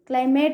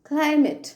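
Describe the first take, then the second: First: The last syllable has an 'ay' vowel. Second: The last syllable has an 'ih' vowel. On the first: The speaker calls it wrong. "Climate కాదు" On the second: The speaker calls it right. "ఏమనాలి?"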